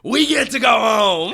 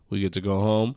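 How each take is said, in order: First: The line is screamed loudly. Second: The line is said in a normal voice.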